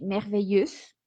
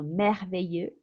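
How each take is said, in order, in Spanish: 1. La consonante final se pronuncia al final. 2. La palabra termina en vocal, sin consonante final. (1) "tendemos a pronunciar la X"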